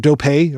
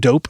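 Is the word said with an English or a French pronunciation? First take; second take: French; English. First: The word is pronounced the French way. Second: The word is pronounced the English way.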